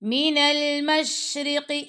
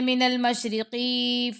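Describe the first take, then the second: First: The vowel after the q sound is kept short. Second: The vowel after the q sound is drawn out long. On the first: The speaker calls it right. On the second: The speaker calls it wrong.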